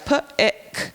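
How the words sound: The word is split into separate sound parts. "they can sound it out"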